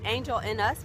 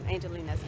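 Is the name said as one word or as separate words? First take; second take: separate words; one word. First: It is said as three separate words. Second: It is said as one flowing name. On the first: This is how foreigners read it from the spelling. "Foreigners call it Angel in Us because that's how it looks like it's spelled" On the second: This is how Koreans say it. "Koreans pronounce it An- Angelinas, like like a name"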